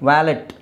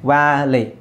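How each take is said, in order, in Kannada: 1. valet ಪದದಲ್ಲಿ ಕೊನೆಗೆ t ಶಬ್ದ ಇದೆ. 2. valet ಪದದಲ್ಲಿ ಕೊನೆಗೆ t ಶಬ್ದ ಇಲ್ಲ.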